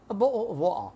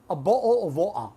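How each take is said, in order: No difference in how they are said.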